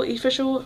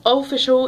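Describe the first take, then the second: First: "official" with a short I at the start, softer; playing with pronunciation. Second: "official" with a clear O at the start; playing with pronunciation. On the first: Fumbling "official" for viewers, opening on a short I. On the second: Correcting herself on "official", a clear opening O. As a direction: say "official" as "oh-ficial". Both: Real, not acted. Tries out ways of saying the word.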